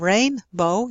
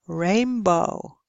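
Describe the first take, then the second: First: An n sound comes before the b. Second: An m sound comes before the b. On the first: "instead of" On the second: "you say"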